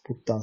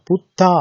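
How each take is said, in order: First: Said in the usual way. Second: "putta" said high and loud with a clear double t; Pali word modelled. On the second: Shown as a demonstration.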